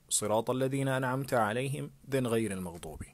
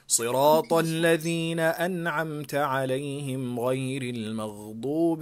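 First: There is a pause after عليهم before غير. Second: It is recited in one breath without pausing. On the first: "it's better for you to split it" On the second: "you have to do it all together"

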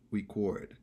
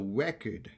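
First: The stress is on the second syllable. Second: The stress is on the first syllable. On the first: It is the verb, meaning to capture sound. "Lorsque son verbe est prononcé record" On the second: It is the noun, meaning a written account. "this book is a record"

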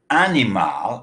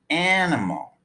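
First: The unstressed vowels are pronounced full, as spelled. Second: The unstressed vowels are reduced to schwas. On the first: The speaker calls it wrong. "It's not animal" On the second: The speaker calls it right. "it's animal"

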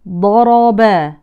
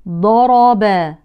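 The two takes are said the same way.

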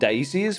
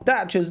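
First: The middle consonant is an s sound. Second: The middle consonant is a ch sound. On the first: This is the name commonly used in the country. The speaker calls it wrong. "we've been calling them Dacias for years" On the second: This is the name the makers use. The speaker calls it right. "they're called Dachas. Dachas, not Dacias at all"

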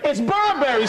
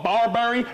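First: The first syllable sounds like 'bur'. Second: The first syllable sounds like 'bar'. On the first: The speaker calls it right. "It's Burberry, stupid" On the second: The speaker calls it wrong.

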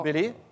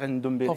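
First: The name starts directly with a d sound. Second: The name starts with an n before the d. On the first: The speaker calls it right. "parce qu'il ne faut pas dire Ndombele" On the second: The speaker calls it wrong. "il ne faut pas dire Ndombele"

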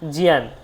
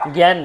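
First: It is said the Sanskrit way, like 'jiyan'. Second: It is said the Bengali way, like 'gyan'. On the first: The speaker calls it right. "উচ্চারণটা কি? জিয়ান" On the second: The speaker calls it wrong. "জ্ঞান নয় কিন্তু"

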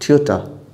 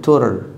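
First: It is said with a British accent. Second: It is said with an American accent. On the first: "British English" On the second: "بالأمريكان"

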